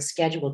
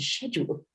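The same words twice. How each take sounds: First: The word is said with an American pronunciation. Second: The word is said with a British pronunciation. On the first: "I would change the word schedule" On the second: "to schedule"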